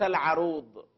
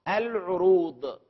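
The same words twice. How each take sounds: First: The first vowel is a, as in 'arud'. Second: The first vowel is u, as in 'urud'. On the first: It names the science of poetic metre. The speaker calls it wrong. "ليس العروض، العروض هذا علم القافية الشعر" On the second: It means predication. The speaker calls it right. "العروض وليس العروض"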